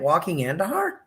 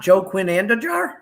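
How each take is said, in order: First: The name is said with Spanish sounds. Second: The name is said with English spelling sounds. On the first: This is the name's actual pronunciation. "That's how you say it?" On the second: This is how the speaker assumed it was said. "You mean it's not"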